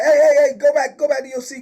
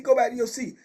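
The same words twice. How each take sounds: First: Loud, high, fast retold order to sit back down; imitating a desk officer yelling across the room; retold shout. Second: Said in the usual way. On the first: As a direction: bark it like a guard stopping a man. Desk guard ordering inmate back.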